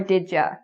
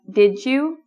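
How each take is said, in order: First: The word 'you' is reduced to 'ya'. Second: The word 'you' keeps its full vowel. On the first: "or did ya" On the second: "did you with a J"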